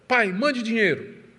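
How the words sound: It sounds like a harsh, demanding order.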